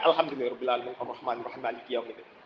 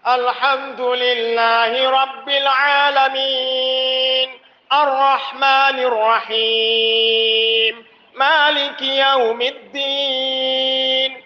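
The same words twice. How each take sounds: First: It is recited quickly with short clipped vowels. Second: It is recited slowly with long drawn-out vowels. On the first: "lebih pendek" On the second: "ketika rokaat pertama"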